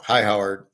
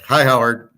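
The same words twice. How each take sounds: First: A lightly imitated apologetic, deferential hello; mock respectful greeting. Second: A slightly brighter, mildly mocking deferential hello; imitated sheepish greeting. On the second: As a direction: say it like a sorry neighbour trying to be polite. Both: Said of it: "like he's sorry and much respect".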